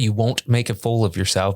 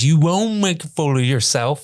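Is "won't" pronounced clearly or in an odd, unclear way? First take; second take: clearly; oddly. First: The word "won't" is pronounced clearly and normally. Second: The word "won't" is pronounced oddly, almost like "will". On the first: This is what the line is meant to say. "She's she's trying to say" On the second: This is how the character actually says it. "but she goes, ... she just pronounces it weird"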